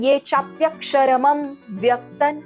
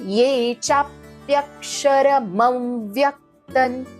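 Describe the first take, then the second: First: The m sound is said separately, apart from the next word. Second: The m sound is joined smoothly onto the next word. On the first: The speaker calls it wrong. "हे नाही बोलत आहे" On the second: The speaker calls it right. "म व्यक्तन सोबत join करून बोलतोय"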